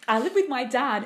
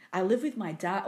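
First: Said in the usual way. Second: Sexy voice. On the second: Shown as a demonstration. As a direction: read it like a seductive whisper. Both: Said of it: "I can't read that in a sexy voice".

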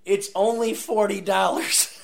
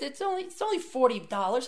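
First: Langsam und betont spöttisch; spöttisch nachgeäfft. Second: Beiläufig, hoch, locker; lässige Freunde. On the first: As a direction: den Satz ungläubig nachäffen. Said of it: "I have never said that in my life". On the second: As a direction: als wäre es nichts. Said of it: "they're like". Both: Retold or imitated.

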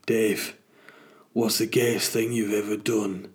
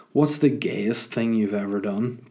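First: Put-on Northern English voice; Northern English accent. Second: Said in the usual way. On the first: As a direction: ask it like someone from the North of England. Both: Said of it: "but asked in a Northern English accent".

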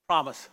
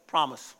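No difference in how they are said.

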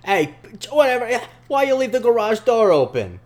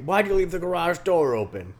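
First: Put-on loud, high New York accent, neighbor's gripe; hammed-up New Yorker complaining. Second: Higher mock neighbor without the New York accent; lightly voiced grumpy dad; less New York. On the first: Mocking the neighbor scolding his son, New York accent. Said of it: "He's not from New York, man". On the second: Redoing the neighbor's line, toned-down mock dad. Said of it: "Your Leland is so good".

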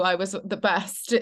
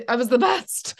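First: Said in the usual way. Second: "best" lifted higher and louder with a rise; proud emphasis. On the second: Shown as a demonstration. Boasting about school drama, "best" pushed up. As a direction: swell with pride on "best".

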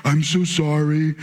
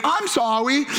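First: Low, slow sorry; humble apology. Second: Put-on higher, playful little-kid sorry; flippant apology. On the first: Shown as a demonstration. Dad showing son the right way, humble. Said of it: "humble yourself and be like". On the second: Two-year-old hugging tackled brother, flippant. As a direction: toss it off without humility. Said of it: "that's not the right way to say you're sorry".

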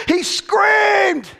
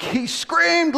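First: SCREAMED shouted high and held long; screamed-out reading. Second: High-pitched, emphatic SCREAMED; raised dramatic reading. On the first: Shown as a demonstration. Preacher makes people hear the text, screaming SCREAMED. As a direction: yell the word SCREAMED at full force. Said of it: "Listen to the texture, people". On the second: Acted. Preacher reads the demoniac verse, high dramatic emphasis. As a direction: read SCREAMED high, short of a shout.

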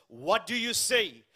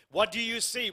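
First: Slow, weighty title read; sermon title, spoken deliberately; title announced. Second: Said in the usual way. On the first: Shown as a demonstration. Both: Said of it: "The title of my message".

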